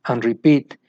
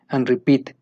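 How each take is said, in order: Both takes have the same delivery.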